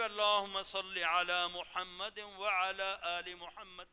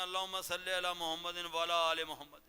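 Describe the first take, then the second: First: Slow, careful "وعلی" with a clear ain; measured Arabic recitation, each sound of "وعلی آل محمد" articulated; صحیح تلفظ. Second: Low, run-together "ولا آل محمد", the ain lost; لوگوں کا غلط تلفظ. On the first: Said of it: "میں کتنے لوگوں سے دروشی سنتا ہوں". (ٹھہر ٹھہر کر عین کے ساتھ وعلی) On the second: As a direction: imitate careless reciters, blurring "وعلی" into "ولا". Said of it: "پڑھتے ہیں". (نیچی آواز میں وعلی کو ولا پڑھنا) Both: Shown as a demonstration.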